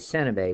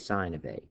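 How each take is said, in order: First: The first word has a short vowel, like 'sin'. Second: The first word has a long vowel, like 'sign'. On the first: The speaker calls it wrong. "We don't say sin of A" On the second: The speaker calls it right. "we say sine of A"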